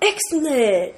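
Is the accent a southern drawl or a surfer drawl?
surfer drawl. It is said in a laid-back surfer-dude voice. "I can't even talk about it without using that voice"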